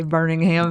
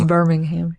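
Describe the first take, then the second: First: BIRMINGHAM said with an n, as "Burning-ham"; mispronunciation. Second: BIRMINGHAM with a clear m, "Bur-ming-ham"; corrected pronunciation. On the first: Host showing the slip they keep making, BIRMINGHAM mispronounced as "Burning-ham". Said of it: "That's what I wanna say". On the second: Host accepting the co-host's correction, BIRMINGHAM pronounced with a firm m. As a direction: land the m in BIRMINGHAM, louder. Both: Shown as a demonstration.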